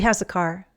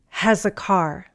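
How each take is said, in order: First: The phrase is said quickly, with the words linked. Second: The phrase is said slowly and carefully. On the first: "say these phrases in fast English" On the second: "Repeat after me"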